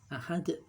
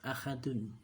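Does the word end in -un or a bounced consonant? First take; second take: bounced consonant; -un. First: The word ends on d with an echoing bounce. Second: The word ends with the full ending -un. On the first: "Karena diwaqafkan dibaca ahad" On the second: "ahadun tidak ada sukunnya"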